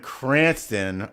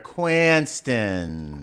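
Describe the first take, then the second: First: It is said in a standard accent. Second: It is said in a local Rhode Island accent.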